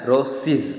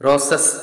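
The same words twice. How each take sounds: First: റോസിസ് ending in an iz sound; റോസിസ് with a voiced iz plural; correct English pronunciation. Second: റോസസ് ending in a plain s sound; റോസസ് with the Malayali s plural; typical Malayali pronunciation. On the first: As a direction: voice the end of റോസിസ് as iz. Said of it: "ഇസ് എന്നൊരു സൗണ്ടാണ് ശരിക്കും". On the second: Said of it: "എന്നാണ് നമ്മൾ പറയുക. അങ്ങനെയല്ല". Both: Shown as a demonstration.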